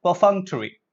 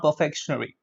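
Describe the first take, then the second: First: "Perfunctory" as per-FUNK-tuh-ree; correct pronunciation. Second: "perfectionary" as per-FEK-shun-ary; mispronunciation. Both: Shown as a demonstration. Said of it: "Okay, not perfectionary".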